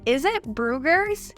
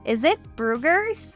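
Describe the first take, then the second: First: The words blend together with a z sound. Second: The same.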